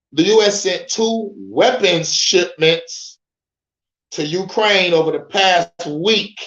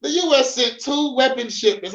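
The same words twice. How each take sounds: First: Slow, careful read-through of the headline; drawn-out headline read. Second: Pitched up, punchy second read of the line; emphatic reread. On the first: Reading the headline slowly to his viewers, slow and careful. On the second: Rereading the headline to get to the meat, high and emphatic. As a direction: hit the headline harder. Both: Shown as a demonstration. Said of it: "This way it gets to the meat and potatoes".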